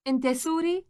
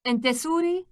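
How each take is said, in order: Both takes have the same delivery.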